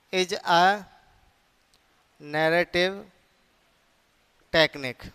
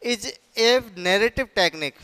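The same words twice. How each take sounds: First: "is a", long pause, "narrative", long pause, "technique"; word-by-word dictation. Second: Said in the usual way. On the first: Shown as a demonstration. Phrase repeated for writing down.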